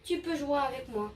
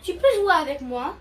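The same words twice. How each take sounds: First: The voice falls at the end. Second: The voice rises at the end.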